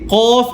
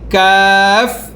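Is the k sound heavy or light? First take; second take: heavy; light. First: The k sound is heavy, from deep in throat. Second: The k sound is light and thin. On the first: The speaker calls it wrong. "এখানে কি কফ এমন বলা যাবে না" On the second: The speaker calls it right. "এটা কি পাতলা"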